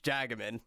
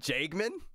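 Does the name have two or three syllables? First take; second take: three; two. First: The name is said with three syllables. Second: The name is said with two syllables. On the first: The speaker calls it right. "No, it's Jagaman" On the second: The speaker calls it wrong. "I was like Jagman"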